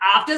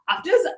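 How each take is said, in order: First: It is said in an imitated British accent. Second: It is said in the speaker's American accent.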